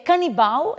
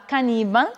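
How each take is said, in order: First: Canibal stressed on BAL, final l as w; Portuguese pronunciation. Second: Caníbal stressed on NI; Spanish pronunciation. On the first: Teacher giving the Portuguese word, final stress. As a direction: land on the last syllable of canibal. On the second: Teacher giving the Spanish word, stress on NI. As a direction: hit NI in caníbal. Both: Shown as a demonstration. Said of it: "em espanhol será".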